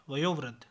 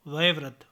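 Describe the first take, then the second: First: Said in the usual way. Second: वयोवृद्ध with e in place of o; mispronunciation. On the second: Shown as a demonstration. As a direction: say va-ye-vriddh for वयोवृद्ध. (वयोवृद्ध को वयेवृद्ध बोलें) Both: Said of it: "वयोवृद्ध नहीं".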